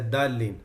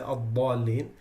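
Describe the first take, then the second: First: The first consonant is a plain light d. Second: The first consonant is heavy and emphatic. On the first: The speaker calls it wrong. "if you don't do the إطباق for the dal ... They say الضالين" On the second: The speaker calls it right. "they don't say الضالين"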